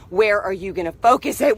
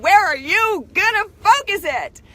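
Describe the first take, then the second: First: Said in the usual way. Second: Much higher and louder, punching "focus"; emphatic repeat. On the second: Shown as a demonstration. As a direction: push the question hard at the listeners. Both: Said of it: "repeat contrast".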